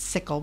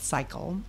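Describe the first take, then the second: First: The first vowel is short, like 'sick'. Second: The first vowel is long, like 'sigh'. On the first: Some other people say it this way. "Some people pronounce it sickle" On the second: The organization itself prefers this way. "we like to call it cycle"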